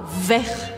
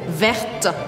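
First: The final t sound is silent. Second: The final t sound is pronounced. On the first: The color is in the masculine form. "na bandeira, eu falo vert" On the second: The color is in the feminine form. "eu colocaria um E no final e viraria vert"

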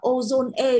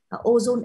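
First: The final e is pronounced as an extra sound. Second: The final e is silent, with no extra sound. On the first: The speaker calls it wrong. "các bạn có thể đọc là ozone E" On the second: The speaker calls it right. "nó sẽ phải đọc là ozone thì nó sẽ thuận hơn"

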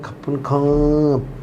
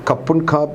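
First: The phrase is drawn out with a deferential tone. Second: The phrase is said plainly and briefly. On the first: It is a thank you showing great respect. "കുറച്ചുകൂടെ പറഞ്ഞ് ... അതിൻ്റെ ടോണ് മാറി അതിൻ്റെ ഭയങ്കര ബഹുമാനത്തോടാ" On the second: It is an ordinary thank you. "കപ്പുൺ ഖാപ് എന്ന് പറഞ്ഞാൽ താങ്ക് യു എന്നാണ്"

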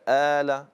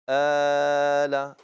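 First: The long vowel is held for two counts. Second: The long vowel is held for four counts. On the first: "القصر ... حركتين" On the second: "والتوسط ... أربع حركات"

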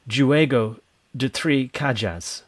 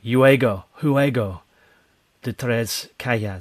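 First: It is said with an English-sounding pronunciation. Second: It is said with a Spanish-sounding pronunciation. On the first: The speaker calls it wrong. "I'm deliberately pronouncing it in a way that a Spanish person wouldn't" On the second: The speaker calls it right. "But it's more like maybe"

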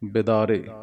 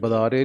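First: The first syllable has the i vowel. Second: The first syllable lacks the i vowel. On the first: The speaker calls it right. "ਬੱਬੇ ਨੂੰ ਸਿਹਾਰੀ" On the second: The speaker calls it wrong. "ਨਹੀਂ ਕਹਿਣਾ"

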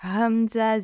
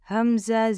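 Both takes have the same delivery.

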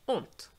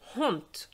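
First: The initial H is completely silent. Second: The initial H is audibly breathed out. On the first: This is how the word is said nowadays. "instead of honte" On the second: This is how the word was said in older times. "So you would really pronounce the H"

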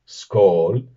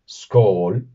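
First: The word is pronounced the Norwegian-Swedish way. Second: The same.

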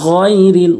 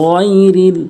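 Both takes have the same delivery.

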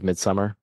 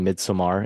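First: The word is said with an English pronunciation. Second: The word is said with a Swedish pronunciation.

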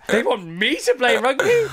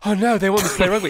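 First: It sounds amused and incredulous. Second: It sounds worried and fearful.

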